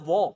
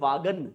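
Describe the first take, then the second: First: The name is one short syllable. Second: The name has two syllables ending in 'gan'. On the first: The speaker calls it right. "बोला जाता है वॉ" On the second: The speaker calls it wrong. "लेकिन हम बोलते हैं, लिखते हैं अखबार वाले कैसे"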